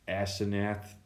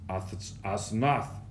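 First: The name is given an anglicized English reading. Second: The name is given its Hebrew pronunciation. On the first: The speaker calls it wrong. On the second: The speaker calls it right.

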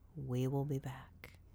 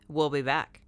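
First: The phrase is said very slowly and drawn out. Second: The phrase is said at a normal pace.

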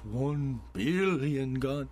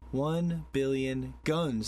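First: It is said in a Doctor Evil impression. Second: It is said in the speaker's normal voice.

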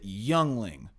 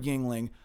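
First: The name sounds like the word 'youngling'. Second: The name does not sound like 'youngling'. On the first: The speaker calls it wrong. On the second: The speaker calls it right.

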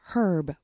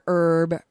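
First: The word begins with an audible h sound. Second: The word begins without an h sound. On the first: "it's pronounced Herb with an H" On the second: "Or Herb"

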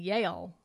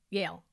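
First: The word is said with two syllables. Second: The word is said with one syllable. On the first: The speaker calls it wrong. "I have been mispronouncing it all these years. I've been saying Yale" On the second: The speaker calls it right. "So I just have to get used to saying Yale"

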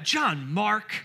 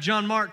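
First: The name is said in a stern, scolding tone. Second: The name is said in a calm, neutral tone. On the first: He is in trouble again. "The normal inflection in which I hear my name" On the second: He is being invited to come up and preach. "and then we're going to have John Mark come up for the message"

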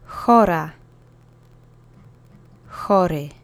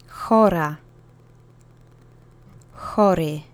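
Both takes have the same delivery.

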